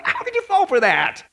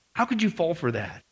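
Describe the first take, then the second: First: High-pitched exasperated question; incredulous scolding. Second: Low, soft disappointed question; subdued reproach. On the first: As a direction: wail it in disbelief. Acted scolding, then repeated softly. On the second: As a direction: drop it down, quietly reproachful. Same question repeated, subdued. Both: Acted.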